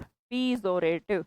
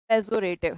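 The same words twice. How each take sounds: First: पीजोरेटिव drawn out slowly with a long "pee" opening; stretched pee-zorative. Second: Said in the usual way. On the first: Shown as a demonstration. Teacher splitting the word for students as a memory trick, slow. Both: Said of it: "पी और जोर".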